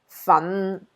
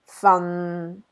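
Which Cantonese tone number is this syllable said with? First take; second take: tone 5; tone 6. First: It is said with Cantonese tone five. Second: It is said with Cantonese tone six.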